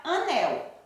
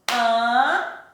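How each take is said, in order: First: Said in the usual way. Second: "anel" split in two slow beats, a... nel; clapped-out syllables. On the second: Shown as a demonstration. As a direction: sound out "anel" with a pause between a and nel. ("anel" separado em sílabas, a, nel) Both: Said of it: "Quantas vezes a Pro Williane bateu".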